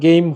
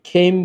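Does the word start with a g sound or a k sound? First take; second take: g sound; k sound. First: The word starts with a voiced g sound. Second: The word starts with a breathy k sound. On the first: The speaker calls it right. "এটার উচ্চারণ কিন্তু গেম হবে" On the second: The speaker calls it wrong. "আবার খেইম বললেন না"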